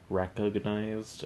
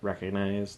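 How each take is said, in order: First: The G sound is clearly pronounced. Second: The G sound is dropped, said quickly. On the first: "there's a G in there" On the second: "that's kind of how you say it"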